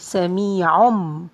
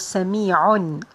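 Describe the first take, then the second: First: The word ends in a full m, lips closed. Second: The word ends in a clear n sound. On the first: "it's going to be sami'um" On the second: "Originally it was sami'un, like that"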